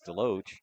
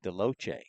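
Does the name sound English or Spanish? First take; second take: English; Spanish. First: The name is said with a plain English sound. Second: The name is said with a Spanish-like sound. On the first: This is how the family says the name. "they did tell us it was Deloach"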